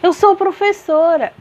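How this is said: It is said with strong feeling, as an exclamation. The speaker expresses strong emotion about it. "eu exclamei"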